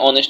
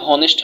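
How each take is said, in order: First: The word begins with a vowel, no h sound. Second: The word begins with an audible h sound. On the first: The speaker calls it right. "অনেস্ট হয়েছে, তার মানে এইচ তার নিজস্ব উচ্চারণটা নেয় নাই" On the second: The speaker calls it wrong. "এইচ এর উচ্চারণ তাহলে হনেস্ট হওয়ার কথা, কিন্তু হনেস্ট হয় নাই"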